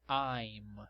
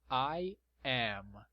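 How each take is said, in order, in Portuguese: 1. Palavras unidas em uma única sílaba curta. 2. Duas palavras separadas, cada uma totalmente pronunciada. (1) "Na forma contraída" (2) "na forma extensa"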